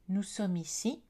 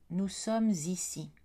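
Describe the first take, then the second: First: The words are said without a linking consonant. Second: A linking z sound joins sommes and ici. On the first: It sounds informal. "registre informel, pas de liaison" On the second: It sounds formal. "dans un registre formel, on va choisir la liaison"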